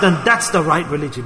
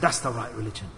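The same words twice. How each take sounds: First: Said in the usual way. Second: "That's the right religion" said much lower and softer; hushed repeat. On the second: Acted. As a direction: let it sink in quietly. Repeated softly as the conclusion.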